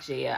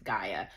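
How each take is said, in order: First: The name begins with a J sound. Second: The name begins with a hard G sound. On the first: The speaker calls it wrong. "I realized I was saying it Jaya. It's not Jaya" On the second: The speaker calls it right. "You pronounce it as Gaia"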